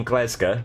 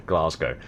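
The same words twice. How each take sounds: First: "Glasgow" said like a local, as "Glez-ga"; local Glasgow pronunciation. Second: Said in the usual way. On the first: Shown as a demonstration. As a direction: clip "Glasgow" short and flat, "Glez-ga" with no "-ow" at the end. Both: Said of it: "If I started saying Glasgow".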